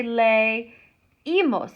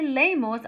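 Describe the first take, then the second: First: "leímos" slowly as lay-EE-mohs; broken diphthong. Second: "leímos" run together as LAY-mohs; diphthong, two syllables. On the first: Teacher showing the wanted form, "leímos" slow as lay-EE-mohs. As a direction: split "leímos" after lay, stressing EE. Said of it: "I have to break that diphthong". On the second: Teacher showing what to avoid, "leímos" as LAY-mohs. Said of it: "'cause I don't wanna say". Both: Shown as a demonstration.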